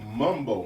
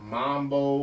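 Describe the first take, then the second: First: The first vowel sounds like 'uh'. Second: The first vowel sounds like 'ah'. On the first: The speaker calls it right. "mumbo, not mambo" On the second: The speaker calls it wrong. "not mambo"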